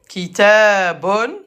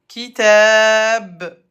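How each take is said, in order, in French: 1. Le mot se termine par un son -un ajouté. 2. Le mot se termine sur un son b nu. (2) "Et à l'arrêt, le ba se prononce comme ba avec soukoun"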